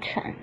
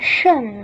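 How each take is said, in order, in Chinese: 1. 读二声，是升调。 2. 读四声，是降调。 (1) "也念二声乘" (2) "都念成四声的圣"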